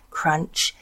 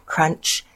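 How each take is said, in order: Both takes have the same delivery.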